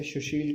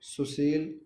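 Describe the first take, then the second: First: सुशील said as "shushil"; sha for sa. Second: सुशील said slowly as "susil"; s sound. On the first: Teacher showing sound confusion, सुशील said as "shushil". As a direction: open सुशील with "sh". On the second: Teacher contrasting sounds, सुशील said as "susil". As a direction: use plain "s" in both syllables of सुशील. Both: Shown as a demonstration. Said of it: "सा को शा भी कहते हैं".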